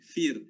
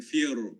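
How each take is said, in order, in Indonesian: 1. Bunyi r dibaca nipis dan ringan. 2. Bunyi r dibaca tebal dan berat. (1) "Maka ro ni dibaca nipis" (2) "bukan fir, kan?"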